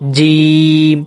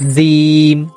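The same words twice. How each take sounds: First: The first consonant is said hard. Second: The first consonant is said softly. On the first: The speaker calls it right. "একটু কঠিন ভাবে, শক্ত হবে।" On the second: The speaker calls it wrong. "এই উচ্চারণটা ভুল।"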